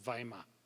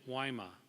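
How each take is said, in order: First: The name is said the continental European way. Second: The name is said the American way.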